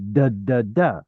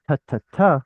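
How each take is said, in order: First: "da" repeated with a voiced D. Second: Crisp unvoiced "ta", repeated quickly; voiceless T. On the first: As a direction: let the voice buzz through each "da". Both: Shown as a demonstration. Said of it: "one is vocal and the other is not".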